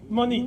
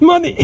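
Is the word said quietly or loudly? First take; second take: quietly; loudly. First: It is said at a normal, quieter volume. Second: It is said much more loudly.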